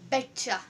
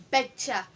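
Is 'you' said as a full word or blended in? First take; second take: blended; blended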